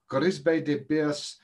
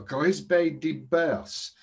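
First: Slower mock French repeat of Grisbe de Bers; dodgy French accent. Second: Slow, hammed-up French accent on Grisbe de Bers; dodgy French accent. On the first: Tipster repeating the horse name, dodgy French accent. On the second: Tipster naming his horse, dodgy French accent. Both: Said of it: "not a trace of a dodgy French".

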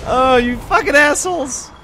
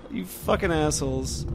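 First: Loud high furious curse; angry yell. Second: Said in the usual way. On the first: Real, not acted. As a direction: yell it at the enemies. Enemies ambush him again.

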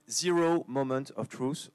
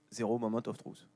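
First: Slow, deliberate English pronunciation; showy English accent. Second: "Zero Moment of Truth" in a plain French accent, softer; softly spoken, thoroughly French accent; French pronunciation. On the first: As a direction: say "Zero Moment of Truth" slowly in an English accent. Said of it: "je fais bien l'accent anglais". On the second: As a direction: read the English words as if they were French. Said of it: "en français". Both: Shown as a demonstration.

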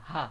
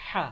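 First: "হা" as the easy sound of simply opening the mouth; just open your mouth and let "হা" out, unforced; light open-mouthed HA. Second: Strong, throaty aspirated "হা"; forceful breathy HA. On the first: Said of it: "মুখ হা করলে যে একটা আওয়াজ হয়". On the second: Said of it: "ভিতর থেকে হাওয়া এসে উচ্চারণ হবে". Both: Shown as a demonstration.

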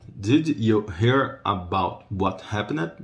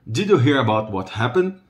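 First: Did you hear about what happened said slowly, every word separate; slow model phrase. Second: Said in the usual way. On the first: Shown as a demonstration. Teacher modelling the question slowly for learners. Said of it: "repeats slowly for students". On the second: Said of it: "repeats for students".

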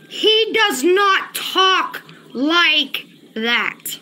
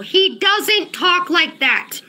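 First: Very slow, long gaps between "talk", "like" and "that"; word-by-word insistence. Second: Slow, firm "doesn't talk like that"; emphatic denial. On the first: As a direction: spell out "does not talk like that" word by word. Repeats denial word by word. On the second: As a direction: lean slowly on "doesn't talk". Insisting a chatter is fake. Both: Real, not acted.

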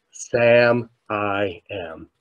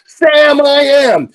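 First: Slow, soft, spaced-out words; hushed. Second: Loud, high chorus-style shout; kids shouting out. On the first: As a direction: let it land quietly, word by word. Soft payoff after retold thank you. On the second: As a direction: bellow it like kindergartners joining in. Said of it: "the kids shouted out". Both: Retold or imitated.

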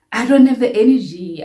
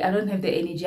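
First: First take louder, stressing DON'T; firm insistence on don't; emphatic. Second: Said in the usual way. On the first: Real, not acted. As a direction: lean hard on don't in I don't have the energy. Repeats line with emphasis.

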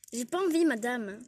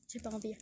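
First: Defiant louder refusal. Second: Said in the usual way. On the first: Acted. Élève refuse encore, insolente. (refus insolent plus fort et plus aigu)

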